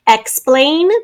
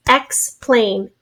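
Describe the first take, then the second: First: Said in the usual way. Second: In syllables. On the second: Shown as a demonstration. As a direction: Explain split into EX, pause, PLAIN. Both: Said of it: "two syllables".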